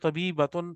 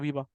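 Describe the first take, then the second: First: The word ends with the full -atun ending. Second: The word ends shortened in a plain -a. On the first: "तबीबा या तबीबतुन एक ही बात है" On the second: "आप रुकेंगे तो तबीबा"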